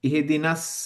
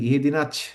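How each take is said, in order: First: The word ends with an 's' sound. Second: The word ends with a 'ch' sound. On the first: The speaker calls it right. "এটা স" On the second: The speaker calls it wrong. "আমরা বাংলায় কি বলি, ছ উচ্চারণ করি না?"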